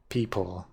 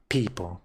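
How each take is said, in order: First: It is said with a more standard accent. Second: It is said with a heavy foreign accent. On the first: The speaker calls it right. "that that went well" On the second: The speaker calls it wrong. "With my heavy accent"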